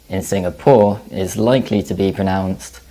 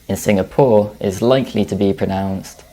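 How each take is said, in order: No difference in how they are said.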